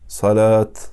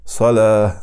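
First: The word ends with a clear t sound. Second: The word ends softly with an h sound. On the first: The speaker calls it wrong. "а не закат, салят. Некоторые азан так говорят. Это неправильно" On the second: The speaker calls it right. "я останавливаюсь на этих словах и подобно им, аляльха"

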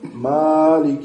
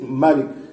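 First: The first vowel is drawn out long. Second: The first vowel is kept short. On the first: "Есть с Маддом" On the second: "без Алифа, без Мадда"

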